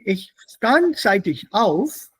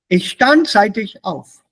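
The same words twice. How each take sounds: First: The pitch rises slightly at the end. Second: The pitch falls at the end. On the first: The sentence continues. "because I've raised my intonation slightly" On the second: The sentence is finished. "Sentence over"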